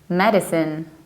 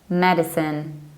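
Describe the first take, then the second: Both takes have the same delivery.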